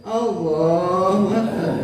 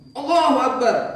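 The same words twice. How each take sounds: First: It is said weakly, like a dying man. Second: It is said forcefully, like a battle cry.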